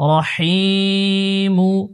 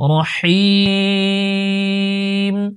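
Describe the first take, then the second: First: The word ends with a mu sound. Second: The word ends with a plain m sound. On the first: The recitation continues without stopping. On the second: The recitation stops after this word.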